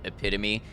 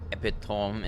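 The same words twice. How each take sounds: First: The word is said with an English-style pronunciation. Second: The word is said with a French-style pronunciation. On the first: "rather than uh, Anglican" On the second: "a French sort of pronunciation"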